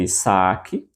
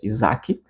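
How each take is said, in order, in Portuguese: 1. A consoante do meio é um som de s. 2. A consoante do meio é um som de z. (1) "no grego Isaac, com S, com som de, de S, né, não de Z" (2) "em português Isaac"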